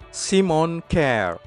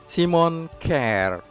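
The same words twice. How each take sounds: The two takes are said the same way.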